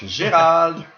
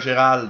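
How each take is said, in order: First: The name has a French pronunciation. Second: The name has an English pronunciation.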